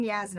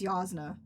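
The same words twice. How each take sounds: First: Yasna with a short "a" as in "jazz"; rejected variant. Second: Yasna with an open "ah"; corrected variant. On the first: Reader rules out one version, Yasna with short "a". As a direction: say Yasna as YAZ-nuh. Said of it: "Not even Yasna". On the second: Reader settles on the book's version, Yasna with "ah". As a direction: say Yasna as YAHZ-nuh. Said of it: "I think it's Yasna". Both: Shown as a demonstration.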